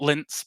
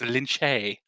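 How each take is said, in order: First: The name is said as one syllable. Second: The name is said as two syllables. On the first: The speaker calls it wrong. "It's not Linz" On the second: The speaker calls it right. "It's it's Lynn Shay"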